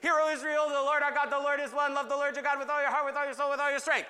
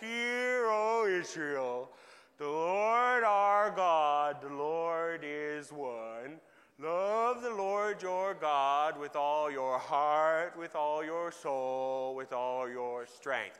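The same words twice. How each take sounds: First: It is said fast and with hyper energy. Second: It is said slowly and tiredly, with yawning.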